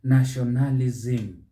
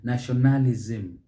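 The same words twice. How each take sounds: First: The stress falls on a later syllable. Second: The same.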